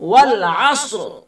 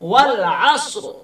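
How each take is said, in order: No difference in how they are said.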